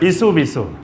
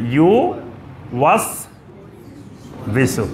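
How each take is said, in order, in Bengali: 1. শব্দটি জড়িয়ে দুটি ছোট অংশে বলা হয়েছে। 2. শব্দটি তিনটি স্পষ্ট অংশে বলা হয়েছে। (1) "কয় ইসু বিসু" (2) "তিনটা জিনিস এখানে"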